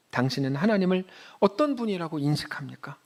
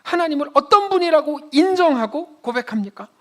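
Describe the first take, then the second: First: Said in the usual way. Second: Higher, louder, pressing the question on "어떤"; forceful repeat. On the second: Shown as a demonstration. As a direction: drive the question home with pulpit force.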